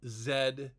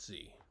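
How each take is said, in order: First: The letter name is said the non-American way. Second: The letter name is said the American way. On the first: This is the letter's proper name in English. The speaker calls it right. "the letter is called Z" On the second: This is what Americans call the letter. The speaker calls it wrong. "not Z"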